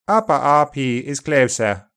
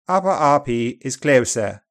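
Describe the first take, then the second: The two takes are said the same way.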